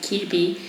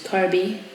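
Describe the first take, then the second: First: The name is said with a Spanish pronunciation. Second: The name is said with an English pronunciation. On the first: "in Spanish we pronounce it Kirby" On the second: "in English is Kirby"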